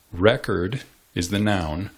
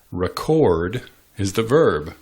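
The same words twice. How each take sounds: First: Record said REK-erd, as a noun; stress on first syllable. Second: Record said re-KORD, as a verb; stress on second syllable. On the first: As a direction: hit the start of record. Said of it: "emphasizing the first syllable". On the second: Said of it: "emphasizing the second syllable". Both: Shown as a demonstration.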